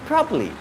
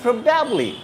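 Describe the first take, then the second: First: The word is squeezed into fewer syllables. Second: All three syllables are said in full. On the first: "they contract the words while pronouncing. They make it shorter" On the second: "When it comes to the correct pronunciation, it is probably"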